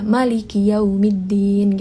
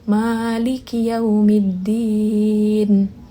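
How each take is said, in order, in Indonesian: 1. Vokal pertama Maliki pendek. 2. Vokal pertama Maliki panjang. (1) "dengan tanpa mad, yaitu pendek" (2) "panjang, maksudnya dibaca dengan mad"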